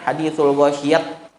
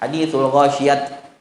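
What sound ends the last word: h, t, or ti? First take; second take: t; t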